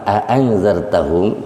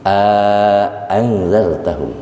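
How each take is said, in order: First: Short "a", then a separate "angzartahum"; tahqiq without madd. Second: Long "A" before a separate hamzah in "angzartahum"; tahqiq with madd. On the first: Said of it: "bi ghairil maddi". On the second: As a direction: stretch the "A", then re-attack "angzartahum". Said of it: "Tahqiq ma'al maddi". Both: Shown as a demonstration.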